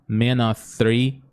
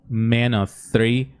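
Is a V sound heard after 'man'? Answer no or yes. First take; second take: no; no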